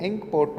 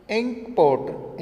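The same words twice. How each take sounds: First: Said in the usual way. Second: इंक पॉट said higher and slow, stressing इंक; model pronunciation. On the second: Shown as a demonstration. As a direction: slowly present इंक पॉट as the example. (इंक पॉट को धीमे ऊँचा बोलना) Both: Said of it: "इंक पॉट में देखिए ई की sound".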